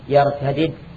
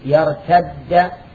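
First: The two final consonants are pronounced separately. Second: The two final consonants are merged into one doubled sound. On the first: "وأن تقول يرتدد" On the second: "الإدغام جائز لا واجب"

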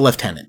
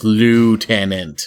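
First: It is said with a British pronunciation. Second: It is said with an American pronunciation.

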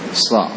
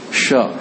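First: The consonant is an s sound. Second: The consonant is an sh sound. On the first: The speaker calls it right. "Ini sama dengan sin, hanya tambahkan dengan sifat tadi isti'la dan itbam" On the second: The speaker calls it wrong. "Jangan dibaca sho"

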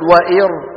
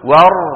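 First: A glottal stop and vowel come before the r. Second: The glottal stop is dropped; it flows straight on. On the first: The speaker calls it wrong. "ولا نقول وإر" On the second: The speaker calls it right. "ور، ور، ولا نقول وإر"

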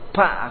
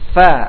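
First: It begins with both lips pressed together. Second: It begins with lower lip touching upper teeth. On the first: The speaker calls it wrong. "fa jadi pa, karena makhrajnya menggunakan dua bau bibir atas dan bawah" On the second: The speaker calls it right. "Fa ini bagian dalam bibir bawah, bagian dalam nih. Dengan ujung gigi seri atas"

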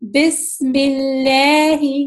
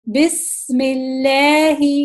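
No difference in how they are said.

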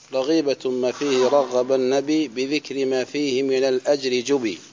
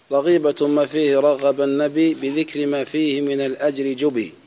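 The two takes are said the same way.

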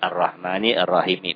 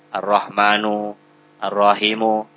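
First: Both words end with an 'i' vowel. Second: Both words end with a 'u' vowel. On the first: The speaker calls it right. "Tetap Ar-Rahmani Ar-Rahimi" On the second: The speaker calls it wrong. "diganti bismillahu arrahmanu arrahimu"

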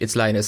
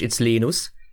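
First: The name is said the English way. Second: The name is said the Finnish way.

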